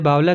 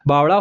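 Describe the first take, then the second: First: The middle consonant is a plain l sound. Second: The middle consonant is a retroflex flapped sound. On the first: "Hindi में आप सामान्यतः बावला कहते हैं" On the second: "Haryanvi में कहेंगे"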